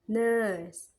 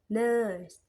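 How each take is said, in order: No difference in how they are said.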